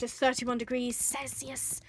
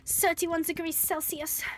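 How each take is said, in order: First: Said in the usual way. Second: Slow, higher mock European accent; put-on foreign accent. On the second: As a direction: play with a foreign accent, "th" turned to "s". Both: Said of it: "I wish I had a cool accent".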